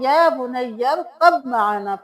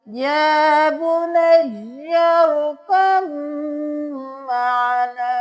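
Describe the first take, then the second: First: A clear b sound is heard before maana. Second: The b merges into a long nasal m. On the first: The speaker calls it wrong. "बहुत से लोग या बुनय्या अरकब माना पढ़ते हैं" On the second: The speaker calls it right. "बा को हम ख़त्म कर देंगे ... मीम पे देर भी लगाएँगे"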